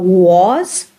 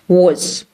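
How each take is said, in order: First: The vowel is full and clearly pronounced. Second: The vowel is short and reduced. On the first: "instead of was" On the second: "It is shortened and it, it sounds like very short oo"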